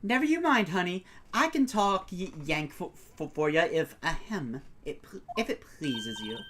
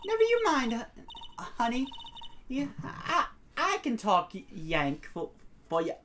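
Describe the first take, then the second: First: Put-on Southern accent. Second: Halting Southern voice, starting high; stuttering Southern accent. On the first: Photographer offering to talk Yank, steadier Southern accent. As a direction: reassure in a folksy Southern accent. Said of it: "why I don't speak a Southern accent". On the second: Acted. Photographer reassuring shy visitor, stuttering Southern accent. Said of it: "I hate my stutter".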